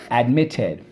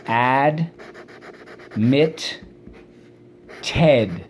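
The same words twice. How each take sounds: First: Said in the usual way. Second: "Admit Ted" in three beats with long pauses; syllable by syllable. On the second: Shown as a demonstration. Teacher waiting for class to echo each part, syllable by syllable. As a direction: sound out "Admit Ted" as AD... MIT... TED. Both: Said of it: "Let's go".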